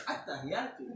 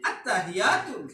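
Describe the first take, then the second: First: At-tahiyatu in a soft, slightly foreign Arabic lilt; mild accented At-tahiyatu. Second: Said in the usual way. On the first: Shown as a demonstration. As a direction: say At-tahiyatu with a light non-native accent. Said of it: "Itu logat, tapi masih bahasa Arab". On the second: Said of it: "Itu logat".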